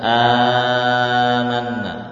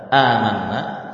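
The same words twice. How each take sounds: First: The opening vowel is drawn out long. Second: The opening vowel is held short, two counts. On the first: "sebagian lagi membaca dengan panjang" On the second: "seperti yang kita baca"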